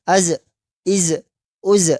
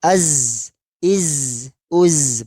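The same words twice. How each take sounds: First: Uz ending with a bounced, echoing release; bounced zai. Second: Az held smooth with no bounce at the end; correct zai. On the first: Teacher showing the wrong, bounced zai. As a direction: let the z rebound at the end. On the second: Teacher showing the right, unbounced zai. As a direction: end the z clean and steady. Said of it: "Yang betul". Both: Shown as a demonstration.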